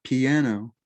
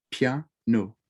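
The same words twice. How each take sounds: First: English piano in three syllables; "piano" stretched into three English syllables, pi-a-no; wrong three-syllable piano. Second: French piano, slowly; "piano" in two syllables, pia-no, said slowly. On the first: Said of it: "not piano as in three syllables". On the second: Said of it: "It's two syllables". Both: Shown as a demonstration.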